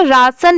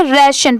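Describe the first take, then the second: First: राशन with a long open 'aa' in the first syllable; wrong 'raa-san' reading. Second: राशन with a front 'ray/rae' vowel, then 'shan'; correct 'ray-shan' reading. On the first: Teacher showing learners the reading to avoid, राशन with long aa. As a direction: say राशन as raa-san, the Hindi way. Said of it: "राशन नहीं पढ़ेंगे". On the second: Teacher correcting the ending of admiration, राशन as rae-shun. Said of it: "राशन पढ़ेंगे". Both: Shown as a demonstration.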